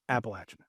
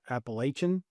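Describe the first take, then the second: First: The middle is said like 'atchin'. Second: The middle is not said like 'atchin'. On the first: The speaker calls it right. "It's Appalachian. Apple Atchin" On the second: The speaker calls it wrong. "They might say Appalachian, ... both are wrong"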